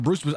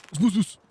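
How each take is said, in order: First: Said in the usual way. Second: Names slurred together too quick; rushed name. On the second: Shown as a demonstration. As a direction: blurt the name out fast. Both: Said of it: "I say names too quick".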